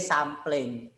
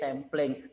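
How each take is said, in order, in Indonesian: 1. Kata ini dibaca cara Indonesia, sesuai ejaannya. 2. Kata ini dibaca cara Inggris. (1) "nggak boleh sampling" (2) "Nah bahasa Inggris sampling"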